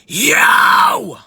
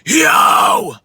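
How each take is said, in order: First: It is screamed at a high pitch. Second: It is screamed at a middle pitch. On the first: "my high would be" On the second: "Mid scream would be"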